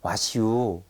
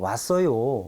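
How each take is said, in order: First: It ends in a drawn-out dialect '-yu'. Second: It ends in standard Korean '-eoyo'. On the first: "요를 유로 늘어뜨리는 경우" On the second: "왔어요 라고 하는 것을"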